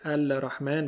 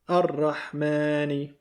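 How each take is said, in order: First: An l sound is heard before the r. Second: No l sound; the r is doubled instead. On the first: The speaker calls it wrong. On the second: The speaker calls it right.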